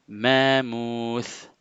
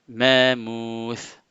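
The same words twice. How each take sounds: Both takes have the same delivery.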